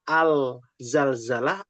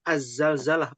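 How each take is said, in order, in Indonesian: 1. Artikel itu tetap memiliki bunyi L yang jelas sebelum Z. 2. L pada artikel melebur menjadi bunyi Z ganda.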